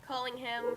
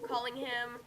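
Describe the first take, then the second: No difference in how they are said.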